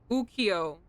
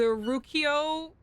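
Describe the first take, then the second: First: The word starts with a vowel sound. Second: The word starts with an R sound. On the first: The speaker calls it right. "Not there's no R" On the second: The speaker calls it wrong. "I know I said it wrong. I said the R"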